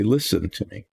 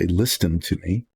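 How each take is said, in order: First: The T in listen is silent. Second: The T in listen is pronounced. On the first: The speaker calls it right. "They say listen to me" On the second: The speaker calls it wrong. "People don't say listen to me"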